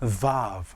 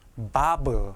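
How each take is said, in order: First: The word begins with a v sound. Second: The word begins with a b sound. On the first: The speaker calls it right. "영어 V처럼 발음하셔야 됩니다" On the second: The speaker calls it wrong. "bob 하시지 마시고"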